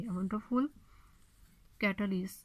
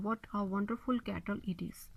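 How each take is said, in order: First: Said in the usual way. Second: Whispered. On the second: Shown as a demonstration. Corrected example sentence, whispered.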